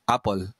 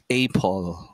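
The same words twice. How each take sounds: First: The first vowel is a short 'a' sound. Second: The first vowel sounds like the letter name. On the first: The speaker calls it right. "It's apple. So yung tunog, yun yung tinuturo" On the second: The speaker calls it wrong. "A is not pronounced apple"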